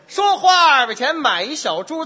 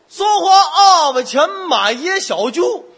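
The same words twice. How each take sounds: First: Every syllable is articulated crisply and clearly. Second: The syllables are slurred with a thick tongue. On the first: The speaker calls it right. "听得特别清楚" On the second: The speaker calls it wrong. "大舌头"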